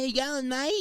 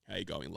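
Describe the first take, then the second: First: It is said in a high-pitched voice. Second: It is said in a deep voice.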